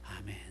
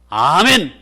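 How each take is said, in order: First: It is said quietly and meekly. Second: It is said loudly and boldly.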